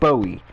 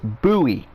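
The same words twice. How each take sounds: First: It is said like the singer's name. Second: It is said to sound like 'buoy'. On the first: The speaker calls it wrong. "not Bowie, not like [name] Bowie" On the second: The speaker calls it right. "It's Bowie, like a buoy"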